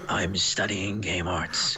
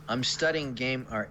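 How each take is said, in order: First: It is read in a put-on voice. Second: It is read in her normal voice.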